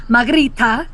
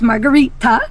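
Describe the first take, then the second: First: The name is said in a Spanish-style accent. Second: The name is said in a plain English accent.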